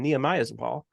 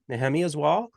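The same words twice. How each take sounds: First: The name is said with English sounds. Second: The name is said with Hebrew-like sounds.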